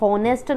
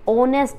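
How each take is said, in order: First: The word begins with an H sound. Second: The word begins with a vowel sound. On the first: The speaker calls it wrong. "हम इसे होनेस्ट नहीं बोलते" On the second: The speaker calls it right. "ओनेस्ट बोलते हैं"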